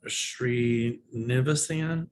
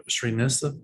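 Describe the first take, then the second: First: "Srinivasan" spelled out slowly syllable by syllable; careful name. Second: "Srinisa-" cut off, a fumbling first try; false start on a name. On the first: Reading a viewer's tricky name, slowly and carefully. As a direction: take "Srinivasan" very slow and deliberate. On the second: Reading a viewer's name aloud, fumbling the start. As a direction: break off "Srinisa-" midway. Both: Real, not acted. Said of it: "I can't pronounce the name".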